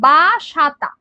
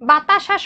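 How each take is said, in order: First: The second syllable is 'sa'. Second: The second syllable is 'ta'. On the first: The speaker calls it wrong. "এইটা change করে কি হয় আমরা বলে দিই" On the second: The speaker calls it right. "বাতাসা শব্দটা আছে"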